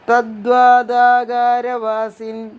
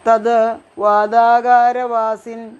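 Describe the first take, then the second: First: The words are run together into one word. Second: The words are said separately with a pause.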